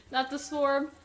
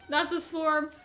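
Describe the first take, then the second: No difference in how they are said.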